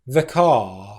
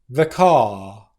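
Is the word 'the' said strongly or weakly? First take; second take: weakly; weakly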